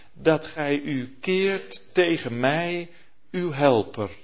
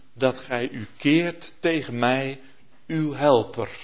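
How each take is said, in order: No difference in how they are said.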